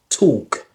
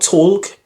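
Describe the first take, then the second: First: The L sound is silent in the word. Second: The L sound is pronounced in the word. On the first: The speaker calls it right. "It's talk" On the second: The speaker calls it wrong. "not talk, because I hear lots of people they say talk, but that's actually incorrect"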